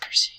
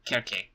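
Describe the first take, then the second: First: The name begins with a soft s sound. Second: The name begins with a hard k sound. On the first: This is the anglicized form of the name. "that's the anglicized pronunciation" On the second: This is the original Greek form of the name. "the proper um, Greek pronunciation would actually be Kerke"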